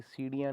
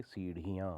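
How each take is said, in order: First: सीढ़ियाँ said as siriyan; no aspiration. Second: सीढ़ियाँ with breathy rhi; aspirated flap. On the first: Teacher shows the error, सीढ़ियाँ with ड़. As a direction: drop the breath from ढ़ in सीढ़ियाँ. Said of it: "नहीं होती". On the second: Teacher corrects it, सीढ़ियाँ with breathy ढ़. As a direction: puff air in the middle of सीढ़ियाँ. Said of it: "होती हैं". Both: Shown as a demonstration.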